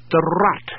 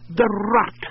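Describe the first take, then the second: First: Said in the usual way. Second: Rut repeated higher, leaning on the word "Rut"; repeated with weight. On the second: Acted. Husband repeating his wife's odd name to a puzzled friend, emphatic. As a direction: say "The Rut" again, slower and firmer. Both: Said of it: "The what?".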